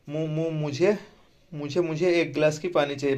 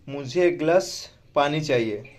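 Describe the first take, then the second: First: The first word is stuttered and repeated several times. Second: It is said smoothly without any repetition.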